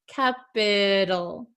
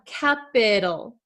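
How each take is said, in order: First: The middle T is a soft, D-like flap. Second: The same.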